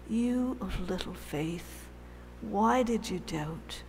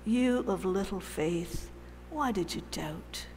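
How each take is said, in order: First: Soft, loving rebuke. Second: Gentle rebuke. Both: Shown as a demonstration. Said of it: "I can't do it properly".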